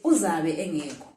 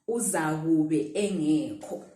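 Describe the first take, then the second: First: The first word is shortened, with syllables run together. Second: Every syllable of the first words is said separately. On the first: This is how people say it in everyday speech. "We actually say it like this uh, when when we're speaking" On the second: This is the complete form of the phrase. "But the full word is that one"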